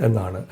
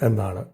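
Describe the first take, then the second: No difference in how they are said.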